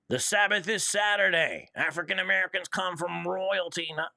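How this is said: It is read in a put-on townsperson voice.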